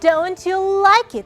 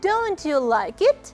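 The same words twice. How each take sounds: First: The pitch falls at the end. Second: The pitch rises at the end. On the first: It is said as a statement. "It's a just statement" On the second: It is asked as a question. "This is question"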